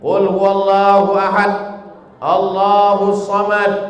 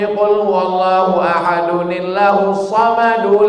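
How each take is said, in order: First: It stops with a pause after each verse. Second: The verses run together without stopping between them.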